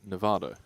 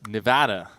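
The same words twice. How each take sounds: First: It is said with a British accent. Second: It is said with an American accent. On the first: The speaker calls it wrong. "I would typically say Nevada" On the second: The speaker calls it right. "There it is. He just did it"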